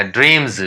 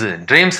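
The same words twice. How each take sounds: First: ड्रीम्स with a buzzed z at the end; voiced Z ending. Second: ड्रीम्स with a hissed s at the end; wrong S ending. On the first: Teacher gives learners the correct reading, ड्रीम्स with final z. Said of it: "ड्रीम्स नहीं पढ़ा जाएगा". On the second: Teacher shows the reading to avoid, ड्रीम्स with final s. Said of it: "नहीं पढ़ा जाएगा". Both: Shown as a demonstration.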